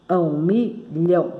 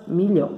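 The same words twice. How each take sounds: First: Milhão slowly split into mi... lhão; syllable by syllable. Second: Said in the usual way. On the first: Shown as a demonstration. Teacher showing two syllables, milhão slowly pulled apart. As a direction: say milhão in two separate beats. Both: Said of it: "tem duas sílabas".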